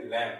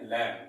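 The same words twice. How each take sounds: First: "लैम" ending on M, with no B; silent B. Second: "लैम" with a B sounded after the M; mispronounced lamb. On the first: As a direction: say "लैम" like "lam", lips closed on the M. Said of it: "इसको सही pronoun में". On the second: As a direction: say "लैम" as misread, like "lamb" with its B voiced. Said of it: "अगर गलत तरीके से". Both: Shown as a demonstration.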